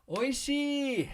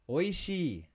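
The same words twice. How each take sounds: First: The word is said with strong, excited emphasis. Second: The word is said at normal speed. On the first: "if you want to be emphatic about it and convince somebody" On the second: "at regular speed"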